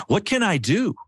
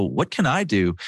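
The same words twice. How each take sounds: First: Much higher and eager, rising to help; eager offer. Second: Flat, defeated question, said plainly; hopeless shrug. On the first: Wife rolling down the window to help, eager and bright. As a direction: leap at the chance to help. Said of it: "she goes". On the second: Husband shrugging at a stranger in the heat, defeated. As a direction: give up before you start. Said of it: "I go". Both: Retold or imitated.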